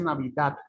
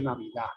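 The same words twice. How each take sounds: First: "Navidad" con la d final dura, casi t; d final marcada. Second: "Navidad" sin d final, "Navidá"; d final caída. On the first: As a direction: remata "Navidad" con una d bien pronunciada. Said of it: "Usted no dice". ("Navidad" cerrado en consonante firme) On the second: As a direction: termina "Navidad" en la vocal: Navidá. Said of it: "te dice". ("Navidad" con la última consonante muda) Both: Shown as a demonstration.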